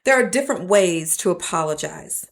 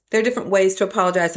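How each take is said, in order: First: Said in the usual way. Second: Fast, run-together restatement; rushed repeat. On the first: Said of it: "repeated line, first take". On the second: Shown as a demonstration. Preacher repeating her point quickly to the congregation, fast. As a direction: rattle it off fast. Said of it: "repeated line, quicker take".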